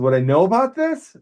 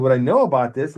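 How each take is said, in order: First: Higher and louder, astonished; baffled that he knew it; amazed question. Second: Said in the usual way. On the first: Retold or imitated. Patient asks the crew how he knew, amazed, higher and louder.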